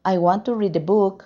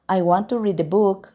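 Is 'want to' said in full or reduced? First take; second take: full; full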